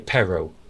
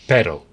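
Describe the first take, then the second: First: The R is said like an English R. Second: The R is a quick tap like American T. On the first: The speaker calls it wrong. "you couldn't do the, the letter R, and you would say pero, and they'd all laugh" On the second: The speaker calls it right. "that letter T with an American accent, put it for the letter R ... that's it"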